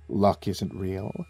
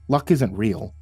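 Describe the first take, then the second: First: It is spoken in a lowered, deep voice. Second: It is spoken at a normal pitch.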